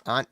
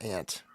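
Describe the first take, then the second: First: "Aunt" as "ahnt", open ah vowel; aunt with broad A. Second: "aunt" as "ant", short front A. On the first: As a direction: say "Aunt" to rhyme with font. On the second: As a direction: say "aunt" to rhyme with pant. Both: Shown as a demonstration. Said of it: "Aunt, not aunt".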